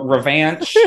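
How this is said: It is said the way a Texan says it.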